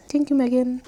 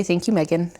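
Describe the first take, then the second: First: Higher, lightly voiced dog thanking Megan; voicing the dog. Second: Said in the usual way. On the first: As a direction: say thanks as the puppy.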